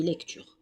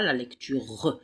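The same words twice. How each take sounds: First: "lecture" ending cleanly on the R; silent final E. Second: "lecture" with an extra "re-uh" syllable at the end; final E wrongly voiced. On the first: Teacher gives pupils the correct form, "lecture" with mute final E. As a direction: say "lecture" with no "euh" after the R. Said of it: "mais on dit lecture". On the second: Teacher shows pupils what not to say, "lecture" with final E pronounced. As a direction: sound the silent E of "lecture" as a drawn-out "euh". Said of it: "On ne dit pas la lecture". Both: Shown as a demonstration.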